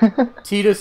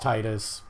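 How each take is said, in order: First: The name is said the Japanese way. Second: The name is said the American way. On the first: This is the name's original form. "Tidus is the Japanese pronunciation" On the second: This is the name's localized form. "The American version is Titus"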